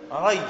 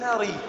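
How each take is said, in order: First: "ري" with a fatha on the ر, as "ray"; correct vowel. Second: "ري" with a kasra, as "ree"; mistaken vowel. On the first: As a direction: say "ري" as a diphthong, ra plus y. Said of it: "الأمر ري وليس بكسر الراء". («ري» بفتح الراء) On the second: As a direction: say "ري" with a long ee after the ر. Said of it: "وليس بكسر الراء". («ري» بكسر الراء) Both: Shown as a demonstration.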